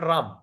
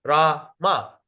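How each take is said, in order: First: Ram closed on the M, no final A; one syllable. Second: RA, pause, MA as two equal beats; word cut in half. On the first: Teacher shows the mistake, Ram squeezed into one syllable. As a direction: say Ram as a single beat. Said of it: "It become one syllable". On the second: Teacher demonstrates for students, Rama in two separated syllables. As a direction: split Rama into RA and MA. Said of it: "You cut the word into half". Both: Shown as a demonstration.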